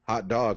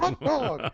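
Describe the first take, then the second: First: It is said in his normal voice. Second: It is said in a Mickey Mouse voice.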